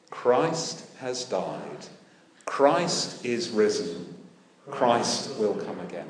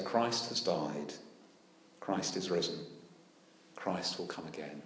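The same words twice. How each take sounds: First: Slow, measured unison-style recital; slow congregational response. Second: Said in the usual way. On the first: Shown as a demonstration. Preacher invites the church to answer, slow recital. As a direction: say it together like a response. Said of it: "Would you be so kind?". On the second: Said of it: "as when we say".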